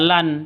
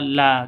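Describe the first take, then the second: First: The syllable ends with an n sound. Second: The syllable ends on a long open vowel. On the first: The speaker calls it wrong. "bukan dibaca lan" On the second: The speaker calls it right. "tapi dibaca la"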